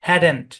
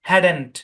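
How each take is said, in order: The two takes are said the same way.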